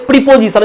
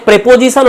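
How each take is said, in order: First: "প্রিপোজিশন" with i in the first syllable; variant pronunciation. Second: "প্রেপোজিশন" with short e in the first syllable; variant pronunciation. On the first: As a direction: say "প্রিপোজিশন" starting with "pri". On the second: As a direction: say "প্রেপোজিশন" starting with "pre" as in press. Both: Shown as a demonstration. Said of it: "অনেকে বলে".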